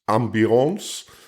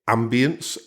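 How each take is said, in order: First: It is said with a French accent. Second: It is said with an English accent.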